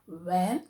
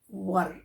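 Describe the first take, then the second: First: The vowel sounds like the one in 'air'. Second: The vowel sounds like the one in 'her'. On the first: The speaker calls it wrong. "It's not where" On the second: The speaker calls it right. "We should pronounce this as were"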